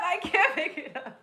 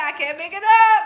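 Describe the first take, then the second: First: Much softer, to herself; softer repeat. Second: Said in the usual way. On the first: Real, not acted. Second take, muttered softly to herself. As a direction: drop it almost under the breath.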